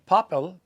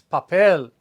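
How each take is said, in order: First: The stress is on the first syllable. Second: The stress is on the last syllable. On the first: The speaker calls it wrong. "we're not stressing the A and saying papel" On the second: The speaker calls it right. "It's papel. We're stressing the last vowel"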